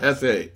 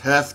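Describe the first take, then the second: First: The word is said as two syllables. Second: The word is said as one syllable. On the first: The speaker calls it wrong. "not Hefe" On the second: The speaker calls it right. "It's Hef"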